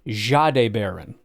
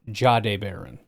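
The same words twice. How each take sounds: First: The first name opens with a French-style soft sound. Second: The first name opens with an English-style hard sound. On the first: The speaker calls it right. "it's like the French Jacques Cousteau. It's Jahdae Barron" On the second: The speaker calls it wrong. "not Jahdae Barron"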